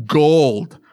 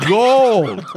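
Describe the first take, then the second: First: Said in the usual way. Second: "Gold." said higher and punchier; emphatic repeat. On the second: Shown as a demonstration. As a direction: hit "Gold." harder and higher the second time.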